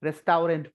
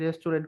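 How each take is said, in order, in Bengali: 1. এটি প্রতিটি বর্ণের অংশ আলাদা করে উচ্চারণ করে বলা হয়েছে। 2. এটি প্রতিদিনের স্বাভাবিক উচ্চারণে বলা হয়েছে। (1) "আমি সব সময় রেস্টাউরেন্ট পড়ি" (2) "আমি রেস্টুরেন্ট কখনোই পড়ি না"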